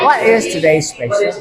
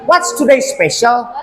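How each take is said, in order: First: "What is" is said as two full words. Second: "What is" is contracted to "what's". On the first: This is the form easier for learners to say. "agak kesusahan dengan lidah kita yang what is today's special" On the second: This is the form commonly heard. "yang Mister sering dengar sih"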